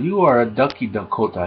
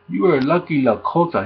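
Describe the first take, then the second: First: The key words begin with a D sound. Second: The key words begin with an L sound. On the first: "He kept saying" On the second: "he was trying to say lucky"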